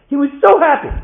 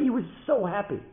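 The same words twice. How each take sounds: First: Very high, loud cry on SO HAPPY; overjoyed emphasis. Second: Higher-pitched delight at normal volume; happy emphasis. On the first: Father relives his son's joy, overjoyed and loud. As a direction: belt out the joy. Storyteller repeats line, much bigger. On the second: Father reports his son's joy, happy and higher. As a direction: tell the joy with a lifted SO. Storyteller repeats line for emphasis. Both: A narrator's reading.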